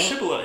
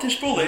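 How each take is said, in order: First: The name starts with a 'sh' sound. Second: The name starts with a 'tish' sound. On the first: The speaker calls it right. "it's Shibola" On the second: The speaker calls it wrong. "It's not Tish Bowler"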